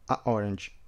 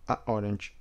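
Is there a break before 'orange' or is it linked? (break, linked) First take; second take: break; break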